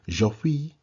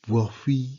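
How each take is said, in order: First: The word starts with a j sound. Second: The word starts with a w sound.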